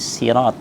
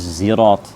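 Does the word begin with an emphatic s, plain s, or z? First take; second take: plain s; z. First: The word begins with a plain, light s. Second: The word begins with a z sound. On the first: "Sebagian membaca dengan huruf sin" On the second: "membacanya dengan bacaan zai"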